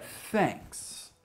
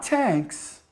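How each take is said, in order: First: "thanks" with a soft th, tongue between the teeth; correct th sound. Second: "tanks" with a hard t instead of th; mispronounced th as t. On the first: Teacher shows learners the right "thanks", unvoiced th, tongue between teeth. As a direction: say "thanks" opening on a breathed, unvoiced th. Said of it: "trouble saying thanks". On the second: Teacher shows learners the wrong "tanks", th turned into t. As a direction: say "tanks", the th swapped for a plain t. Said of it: "Not tanks". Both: Shown as a demonstration.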